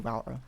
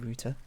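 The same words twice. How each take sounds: First: It is said with an American pronunciation. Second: It is said with a British pronunciation. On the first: "always say router" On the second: "rather than router"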